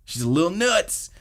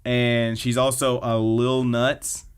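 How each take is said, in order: First: Nuts said much higher with a lilting lift; pitched-up repeat. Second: Said in the usual way. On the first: Shown as a demonstration. Host repeats the sister joke to co-host, pitched up high. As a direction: lift the whole line up playfully. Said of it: "repeated line". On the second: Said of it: "repeated with higher pitch".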